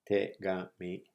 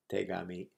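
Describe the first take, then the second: First: "Tegami" in three separate beats, te, ga, mi; syllable by syllable. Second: Said in the usual way. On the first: Shown as a demonstration. Teacher repeats the word for letter to learners, syllable by syllable. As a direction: break "Tegami" evenly into te, ga, mi. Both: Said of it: "Tegami means letter".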